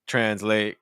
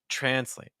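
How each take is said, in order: First: Both syllables have a similar pitch and length. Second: The second syllable is lower and faster. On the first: The speaker calls it wrong. "those pitches are too similar" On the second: The speaker calls it right. "See how fast the late is and see how low in pitch it is?"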